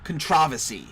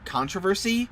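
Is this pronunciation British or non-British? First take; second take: British; non-British. First: It is pronounced the way British people say it. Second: It is pronounced the speaker's usual, non-British way. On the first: "all British people say" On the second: "we've always said the word"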